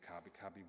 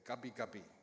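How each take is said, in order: First: It begins with a strong K sound. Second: It begins with a G sound. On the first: This is how the speaker's family said it growing up. "with a really pronounced K" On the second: This is how newer people in the area said it. "with the G sounding"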